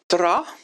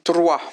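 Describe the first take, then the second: First: The word ends in an 'a' sound. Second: The word ends in a 'wa' sound.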